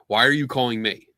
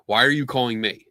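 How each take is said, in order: First: It is asked in a calm, neutral tone. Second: The same.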